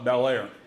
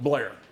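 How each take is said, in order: First: The name is said in full, both parts. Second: The name is run together into one word. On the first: "This is uh, Bel Air" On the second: "as they pronounce it"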